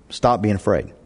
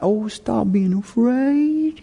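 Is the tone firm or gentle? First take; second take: firm; gentle. First: It is said in a firm, commanding tone. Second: It is said in a soft, soothing tone.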